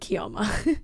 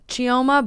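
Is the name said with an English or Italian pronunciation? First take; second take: Italian; English. First: The name is said with an Italian pronunciation. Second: The name is said with an English pronunciation.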